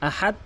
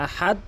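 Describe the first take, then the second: Both takes have the same delivery.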